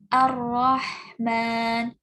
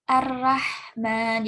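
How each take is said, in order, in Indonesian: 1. r-nya tebal dengan vokal seperti o. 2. r-nya tipis dengan vokal a. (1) "menebalkan ... vokalnya jadi o" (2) "bukan ... jangan sampai jadi a"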